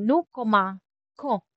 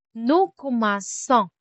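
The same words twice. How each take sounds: First: "commençons" wrongly said with a k, ko-man-kon; "nous commençons" broken up, ending in a hard "kon". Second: "commençons" with an s sound for ç; slow "Nous commençons", soft C as in "son". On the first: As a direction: say "commençons" as if it had no cedilla: ko-ma, kon. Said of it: "Kasi kapag walang si D". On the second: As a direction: say "commençons" as ko-man-son, slowly. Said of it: "Para ma-retain natin yung soft C". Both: Shown as a demonstration.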